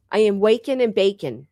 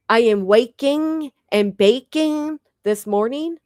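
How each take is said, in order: First: Said in the usual way. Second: "waking" and "baking" slow, each ing hit hard; exaggerated ing. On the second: Shown as a demonstration. Vlogger showing her forced ing to the viewers. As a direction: overdo every ing, slow and sing-song. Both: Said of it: "I have to say ing".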